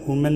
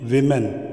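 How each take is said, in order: First: The first syllable has an 'oo' vowel. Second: The first syllable has an 'i' vowel. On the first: The speaker calls it wrong. "वुमेन नहीं है" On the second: The speaker calls it right.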